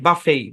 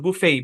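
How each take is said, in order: First: The first vowel sounds like uh. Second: The first vowel sounds like oo. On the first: "আমেরিকানরা এটাকে উচ্চারণ করে বাফেই" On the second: "এটা হচ্ছে British ইংলিশের উচ্চারণ"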